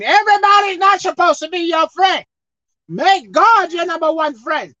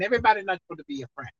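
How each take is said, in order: First: High, loud, stressing Everybody's; loud emphatic repeat; preached shout. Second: Fast and soft, under the breath; soft rushed mutter; quick quiet aside. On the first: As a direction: call it out to the church. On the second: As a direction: toss it off lightly. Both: Real, not acted. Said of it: "I'll say it again".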